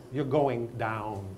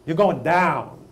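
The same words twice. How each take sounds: First: Slow, measured warning at usual volume; drawn-out warning. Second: Loud, punched warning, pitched up; emphatic warning. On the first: Teacher warning non-readers in the class, slow and drawn out. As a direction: stretch each word out slowly. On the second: Teacher warning non-readers in the class, loud and emphatic. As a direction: call it out forcefully. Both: Acted.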